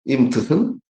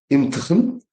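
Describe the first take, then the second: No difference in how they are said.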